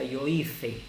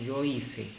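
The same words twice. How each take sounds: First: The c is said with a th sound. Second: The c is said with an s sound. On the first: This is how it is said in Spain. "en España se pronuncia" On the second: This is how it is said across Latin America. "En toda Hispanoamérica pronunciamos"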